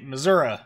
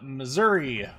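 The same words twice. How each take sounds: First: It is said the way Missouri locals say it. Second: It is said in a general, non-local pronunciation. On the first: The speaker calls it wrong. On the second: The speaker calls it right.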